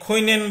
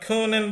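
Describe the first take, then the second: First: The first vowel glides like 'oi'. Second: The first vowel is a single steady sound. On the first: The speaker calls it wrong. "আমি খৈনেন বলবো না" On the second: The speaker calls it right. "আমি খোনেন বলবো"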